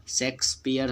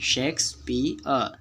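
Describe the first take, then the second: First: शेक्सपियर run together with the final र sounded; शेक्सपियर as one ordinary word, r and all; wrong everyday pronunciation. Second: शेक्सपियर as शेक्स-पी-अ, no final र; correct silent-r pronunciation. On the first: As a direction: pronounce the r closing शेक्सपियर. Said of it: "हम लोग बोलते हैं जो कि गलत है". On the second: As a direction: split शेक्सपियर into slow beats. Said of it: "अ sound वहाँ दे जाता है". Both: Shown as a demonstration.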